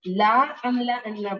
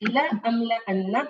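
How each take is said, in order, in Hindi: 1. पहला स्वर खींचकर लंबा पढ़ा जाता है। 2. पहला स्वर छोटा है, एक मात्रा। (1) "सिर्फ एक काउंट एक्स्ट्रा लॉन्ग पढ़ने से" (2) "पढ़ने के बजाय"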